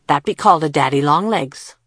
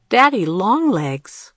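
First: Said in the usual way. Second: Slow, higher, puzzled repeat; amused disbelief. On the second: A narrator's reading. Girl repeats the boy's strange name, amused and surprised. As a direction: savour the odd name as a surprised question. Kira laughed.

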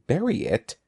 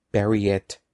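First: Higher-pitched, taken-aback query on "Bury it"; surprised "Bury it?", pitched up; incredulous question. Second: "Bury it" as a firm, settled order; firm command, no question in it; firm repeat. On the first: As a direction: echo it in disbelief. Andy startled by Evan's order. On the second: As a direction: insist on it, pitch kept down. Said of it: "Evan repeated". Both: A narrator's reading.

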